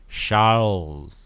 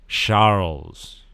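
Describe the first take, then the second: No difference in how they are said.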